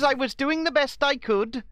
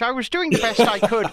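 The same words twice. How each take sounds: First: It is spoken in a Welsh accent. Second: It is spoken in an Irish accent. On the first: "That was kind of Welsh" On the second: "I'll do it in Irish"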